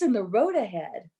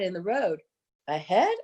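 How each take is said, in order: First: The phrase flows on without any breath. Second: A breath splits the phrase before "ahead." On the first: Something is in the road further along. The speaker calls it right. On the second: There is a head lying in the road. The speaker calls it wrong.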